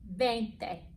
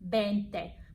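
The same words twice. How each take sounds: First: The word begins with a clear V sound. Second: The word begins with a sound close to B. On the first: "Look at my mouth" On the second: "almost make the V sound like a B"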